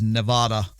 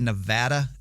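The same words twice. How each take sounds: First: The middle vowel lacks the 'eh' sound. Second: The middle vowel has the 'eh' sound. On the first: This follows the Spanish origin of the name. "they don't have this eh sound. So I, I tend to lean towards Nevada" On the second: This is how the locals say it. "I'm pretty sure they say Nevada out there"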